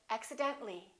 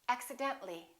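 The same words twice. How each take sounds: No difference in how they are said.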